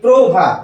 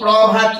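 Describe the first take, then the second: First: The first vowel is a closed 'oh' sound. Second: The first vowel is an open 'aw' sound. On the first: The speaker calls it right. "আমরা বলি প্রভাত, এটাকে উচ্চারণ করি আমরা পয়ের অফলা ওকা দিয়ে" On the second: The speaker calls it wrong. "আমরা এটাকে তো প্রভাত বলি না"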